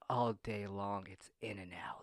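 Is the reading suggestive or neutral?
suggestive. It is read in a suggestive, sexual tone. "Stop reading it like that"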